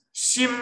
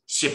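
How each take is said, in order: First: 心 held long on a high level note; first tone. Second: 心 short and low, cut off with a stop; fourth tone. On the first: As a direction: stretch 心 out high and even. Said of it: "第一声是长音". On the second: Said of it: "第四声就是心". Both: Shown as a demonstration.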